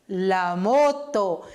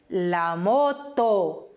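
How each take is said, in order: No difference in how they are said.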